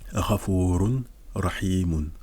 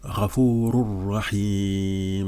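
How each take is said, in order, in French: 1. Le son n se prononce avant le r. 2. Le n se fond complètement dans le r, sans nasalité. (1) "au lieu de dire Ghafurun Rahimun" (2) "on va dire Ghafurur Rahim"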